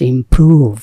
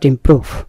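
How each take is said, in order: First: The middle vowel is drawn out long. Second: The middle vowel is cut short. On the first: The speaker calls it right. "এটা একটু লম্বা হবে" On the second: The speaker calls it wrong. "Not"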